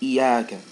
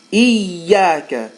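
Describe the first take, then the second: First: The y sound is short and single. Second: The y sound is held long and doubled. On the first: It no longer means 'you'. The speaker calls it wrong. "instead of saying iyaka" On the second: It means 'you alone'. The speaker calls it right. "Make sure you hold that ya"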